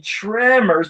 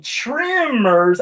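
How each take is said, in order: First: Tremors drawn out with a short e, "trem"; stretched first vowel, "treeem-mers" as in "trem"; emphasized TREMORS. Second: Tremors drawn out with a short i, "trim"; stretched first vowel, "triiim-mers"; TREMORS as trimmers. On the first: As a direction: say tremors slowly with a clear "eh". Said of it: "I was saying tremors". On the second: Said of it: "doing that so you could hear". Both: Shown as a demonstration.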